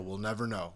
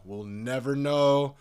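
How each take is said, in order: First: Said in the usual way. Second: Louder and slower, know stretched out; slow, loud declaration of uncertainty; emphatic repeat. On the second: Shown as a demonstration. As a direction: drive the point home the second time.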